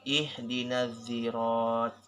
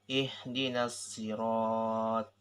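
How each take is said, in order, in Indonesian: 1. Kata ini diawali dengan bunyi seperti z. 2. Kata ini diawali dengan s emfatis, s yang tebal. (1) "bisa diubah dengan huruf zo" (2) "bisa diubah dengan shot ini"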